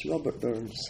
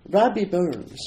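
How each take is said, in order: First: Said in the usual way. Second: "Rabbi Burns" in broad Scottish, rolled r and open a. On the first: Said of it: "Rabbi Burns". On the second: Shown as a demonstration. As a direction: say "Rabbi Burns" the Scots way, proudly.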